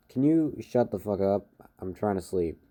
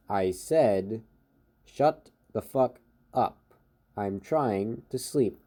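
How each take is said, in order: First: Said in the usual way. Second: Slow, word-by-word repetition of the demand; very slow repeat. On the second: Acted. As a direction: repeat it slowly, spacing out each word. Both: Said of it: "he repeats it very slowly".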